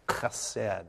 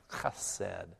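First: Said in the usual way. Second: "chesed" begins with a rough throaty kh; guttural sound. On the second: Shown as a demonstration. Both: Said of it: "there's that guttural sound there".

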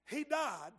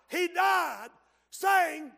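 First: Said in the usual way. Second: Louder, higher, preached. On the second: Shown as a demonstration.

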